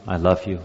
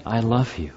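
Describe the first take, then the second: First: Rote, dutiful I love you; as a custom. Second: Understated passionate I love you. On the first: Preacher demonstrating a habitual love to congregation, routine. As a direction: say it out of habit, lower. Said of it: "I can say as a custom". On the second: Preacher demonstrating heartfelt love to congregation, mild passion. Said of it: "I can say it with passion". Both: Shown as a demonstration.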